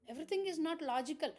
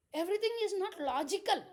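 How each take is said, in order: First: Said in the usual way. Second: "Everything is not logical" raised and pushed, EVERYTHING stressed; a preacher's emphatic first statement. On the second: Shown as a demonstration. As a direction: lean hard on "Everything".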